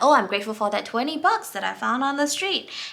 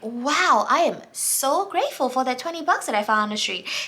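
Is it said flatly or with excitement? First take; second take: flatly; excitement. First: It is said flatly, without much feeling. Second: It is said with excited, heartfelt emotion.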